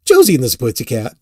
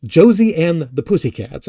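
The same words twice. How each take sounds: First: "Pussycat" muddled in a slip of the tongue; tongue-tied on "Pussycat"; flubbed pronunciation. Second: "and the Pussycats" said distinctly; careful retake of "Pussycats"; corrected retake. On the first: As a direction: stumble over "and the Pussycat". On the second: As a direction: redo "Pussycats" with each word separate. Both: Real, not acted. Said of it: "all these really bad takes".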